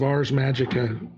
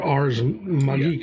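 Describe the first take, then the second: First: The name is pronounced in an everyday English way. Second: The name is pronounced in a Latin way.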